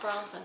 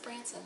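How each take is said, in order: First: The first vowel sounds like the one in cot. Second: The first vowel sounds like the one in cat. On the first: The speaker calls it wrong. "not Bronson" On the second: The speaker calls it right. "it is Branson"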